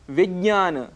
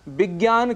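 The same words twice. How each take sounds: First: The word begins with a v sound. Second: The word begins with a b sound. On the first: The speaker calls it right. "इसी क्रम में उदाहरण है विज्ञान" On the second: The speaker calls it wrong. "जिसके स्थान पर हम कई बार विज्ञान कह जाते हैं"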